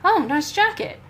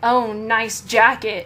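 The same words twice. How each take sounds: First: It is said in a sincere tone. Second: It is said in a sarcastic tone.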